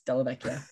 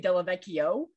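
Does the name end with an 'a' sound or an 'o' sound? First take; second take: a sound; o sound. First: The name ends with an 'a' sound. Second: The name ends with an 'o' sound. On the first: The speaker calls it right. "it's very obviously an A at the end" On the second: The speaker calls it wrong. "they always say Della Vecchio"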